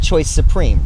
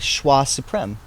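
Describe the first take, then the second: First: The first word sounds like English 'choice'. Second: The first word sounds like French 'shwa'. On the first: This is how the speaker says the name. "I pronounce that Choice Supreme" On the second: This is how friends from the UK might say the name. "would they call it a Schwa Supreme"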